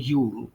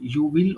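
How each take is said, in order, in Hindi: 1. शब्द मिलकर एक छोटे अक्षर में बदल जाते हैं। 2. दो अलग-अलग पूरे शब्द बोले जाते हैं। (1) "शॉर्ट फॉर्म में यूल पढ़ते हैं" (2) "यू विल और यू शैल को"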